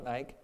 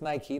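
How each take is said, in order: First: Nike in one syllable, rhyming with bike; wrong pronunciation. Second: Nike in two syllables, NY-kee; correct pronunciation. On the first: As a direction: drop the final vowel of Nike. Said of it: "It's Nike". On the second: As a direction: say Nike ending in a clear "kee". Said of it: "not Nike". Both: Shown as a demonstration.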